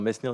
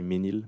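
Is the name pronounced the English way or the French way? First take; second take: English; French. First: The name is pronounced the English way. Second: The name is pronounced the French way. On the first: "Mesnil is the English pronunciation" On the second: "In French, we say Menil"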